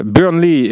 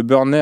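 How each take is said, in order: First: Burnley with an English accent, /bœʀnli/, ending in a clear ee; English pronunciation. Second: Burnley said the French way, /bœʀnɛ/, no final ee; French pronunciation. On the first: Shown as a demonstration. Host corrects himself for listeners with the English pronunciation. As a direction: say Burnley the English way, a little higher and louder. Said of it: "avec l'accent". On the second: Real, not acted. Host first says the club's name the French way. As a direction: say Burnley as a French word, stress on the last syllable. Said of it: "je l'ai prononcé à la française".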